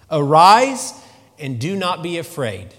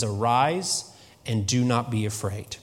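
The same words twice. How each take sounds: First: Arise rings out loud, then settles; preacher booming Jesus' words; proclaimed command. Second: Said in the usual way. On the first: Acted.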